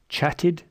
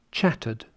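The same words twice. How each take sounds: First: Chatted ending in a short I, "chat-id"; weak I in Chatted. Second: Chattered ending in a schwa, "chat-uhd". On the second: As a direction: end chattered with a relaxed schwa. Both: Shown as a demonstration. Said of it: "Listen to these".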